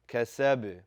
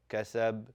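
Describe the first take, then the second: First: The final b ends with a slight vibrating bounce. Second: The final b stops flat without any echo. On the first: The speaker calls it right. "you are just vibrating that sound" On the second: The speaker calls it wrong. "That's not a correct pronunciation"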